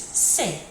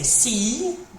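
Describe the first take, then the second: First: The letter is said with French pronunciation. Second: The letter is said with English pronunciation. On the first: "but in in French it's C" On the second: "in English we say C"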